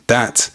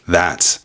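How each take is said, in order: First: The word begins with a d sound. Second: The word begins with a th sound. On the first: "becoming that" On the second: "Things like that"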